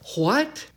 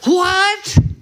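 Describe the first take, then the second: First: The word is said plainly, without strong force. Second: The word is said emphatically, with strong force. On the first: The speaker calls it wrong. "that's not what he said" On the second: The speaker calls it right. "He said it this way. If I could emphatically say it"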